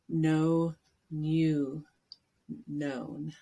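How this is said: It is said in a British accent.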